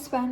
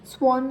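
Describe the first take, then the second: First: The vowel sounds like the 'a' in 'cat'. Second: The vowel sounds like the 'o' in 'on'. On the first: The speaker calls it right. "स्वॅन असते ना" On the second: The speaker calls it wrong. "स्वॉन नाही"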